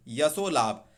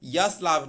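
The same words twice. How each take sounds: First: यशो लाभ with O after श; correct form यशो लाभ. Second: यश लाभ with no O after श; wrong form यश लाभ. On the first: Teacher corrects यश लाभ, joined form. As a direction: say यशो लाभ, yasho-laabh. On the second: Teacher rejects the wrong compound, mistaken form. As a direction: say यश लाभ, yash then laabh. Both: Shown as a demonstration. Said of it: "यश लाभ नहीं".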